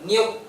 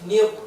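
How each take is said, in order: First: The r sound is light and thin. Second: The r sound is full and thick. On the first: The speaker calls it wrong. "Bukan nir, bukan gitu" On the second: The speaker calls it right.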